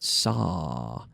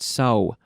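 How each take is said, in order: First: The vowel is long with the mouth held open. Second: The vowel is short with a rounded, closing mouth. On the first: The speaker calls it right. "I'm leaving my mouth open. It's a very long sound" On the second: The speaker calls it wrong. "Not so"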